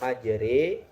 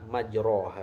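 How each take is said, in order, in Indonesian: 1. Vokal setelah r condong ke e. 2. Vokal setelah r adalah a terbuka. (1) "ini dibaca majre" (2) "Kalau lafaznya majroha"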